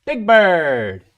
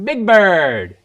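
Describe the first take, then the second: First: Loud, high Big Bird. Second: Higher, even louder Big Bird. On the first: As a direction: boom it out as the big yellow bird. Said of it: "play a Sesame Street". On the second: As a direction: belt the bird name big and bright. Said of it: "let me do one more time". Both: Pretend.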